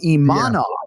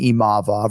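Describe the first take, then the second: First: The middle consonant is an N sound. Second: The middle consonant is a V sound. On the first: The speaker calls it wrong. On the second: The speaker calls it right.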